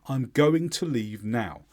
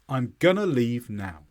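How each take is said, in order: First: Going to is said fully, two clear words. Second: Going to is reduced to one word, gonna. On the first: The speaker is in a professional, formal situation. "She says it properly. She says it fully" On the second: The speaker is in a casual, informal situation. "She doesn't say going to, she says gonna"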